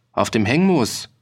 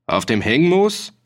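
First: "auf dem Hengmoos" as a statement, falling at the end; confirming answer. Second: "Auf dem Hengmoos" rising high at the end; startled question. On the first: Farmer confirms the questioned place. (bestätigend, am Ende fallend) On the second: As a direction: ask "Auf dem Hengmoos" in surprise, voice climbing. Startled official questions the farmer. (erstaunte Frage, am Ende hoch) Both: A narrator's reading.

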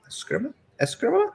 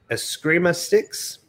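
First: Eskrima with a high, rising Spanish accent. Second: Said in the usual way. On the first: Shown as a demonstration. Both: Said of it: "I say it with a Spanish accent".

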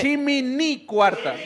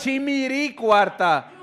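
First: Chimini cuarta very slow and higher, with a clear N; N pronunciation. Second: Chimiri cuarta very slow and higher, with a tapped R; R pronunciation. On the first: Polling the audience by show of hands, chimini cuarta with N. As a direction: stretch "chimini cuarta", landing on the N. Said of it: "quien dice con N chimini". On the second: Polling the audience by show of hands, chimiri cuarta with R. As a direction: stretch "chimiri cuarta", landing on the R. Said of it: "Chimiri con R". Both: Shown as a demonstration.

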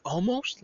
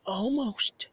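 First: "Almost?" rising at the end like a real question; a high, puzzled "Almost?" that lifts on the last syllable; mock-female "Almost?" with a questioning rise. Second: "Almost." said flat as a statement, falling at the end; a high, flat "Almost." that closes the matter; mock-female "Almost." with a final fall. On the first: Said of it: "she said, like". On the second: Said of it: "she doesn't say".

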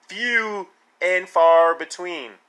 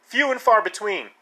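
First: "Few and far between" stretched slowly, word by word; drawn-out emphasis. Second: Said in the usual way. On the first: Real, not acted. Repeats phrase drawn out for emphasis.

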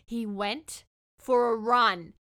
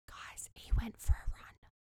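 First: Slow, voiced and louder, with RUN set apart; emphatic disbelief. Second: Whispered disbelief; stunned whisper. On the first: Telling viewers he left, slow emphatic disbelief. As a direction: spell it out slowly, landing hard on "run". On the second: Telling viewers he left, stunned whisper. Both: Real, not acted.

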